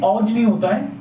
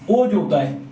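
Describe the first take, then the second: First: "औज" said with an open "au" vowel, like "ɔj", to mark it as the wrong form; wrong au sound. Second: "ओज" said with a pure closed "o" vowel, as the right form; correct o sound. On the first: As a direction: say "औज" with a broad open "au", as the mistake. ("औज" को खुले "औ" स्वर के साथ, गलत रूप की तरह बोलें) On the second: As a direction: say "ओज" with a clean closed "o", as the correct word. ("ओज" को साफ़ बंद "ओ" स्वर के साथ, सही रूप की तरह बोलें) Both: Shown as a demonstration.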